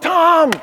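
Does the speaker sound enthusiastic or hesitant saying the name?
enthusiastic. The name is said warmly and enthusiastically.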